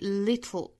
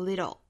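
First: The t is released laterally into the l. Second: The t is a quick flap. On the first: "注意 little 这个单词的舌边爆破" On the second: "美式发音是 flap t"

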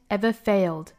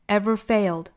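Both takes have the same delivery.

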